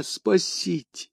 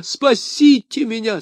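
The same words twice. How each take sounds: First: Slow, softer, sinking final plea; затихающая мольба; plea fading out. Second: High, slow, pleading cry; высокая отчаянная мольба; desperate plea. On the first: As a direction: let the last cry for help die away. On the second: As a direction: beg for rescue at the top of the voice. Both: A narrator's reading. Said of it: "возопил он".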